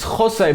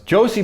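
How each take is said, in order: First: The name is said in a non-English way. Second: The name is said in an English way. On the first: The speaker calls it wrong. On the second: The speaker calls it right.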